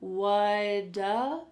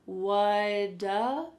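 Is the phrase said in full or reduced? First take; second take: reduced; reduced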